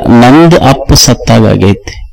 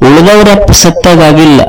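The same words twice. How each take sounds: First: ನಂದು stressed, then a slow, lower fall; stress on mine. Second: Said in the usual way. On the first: Shown as a demonstration. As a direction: lean hard on ನಂದು and slow down. (ನಂದು ಪದಕ್ಕೆ ಒತ್ತು, ನಿಧಾನವಾಗಿ)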